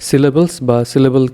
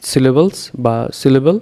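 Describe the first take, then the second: No difference in how they are said.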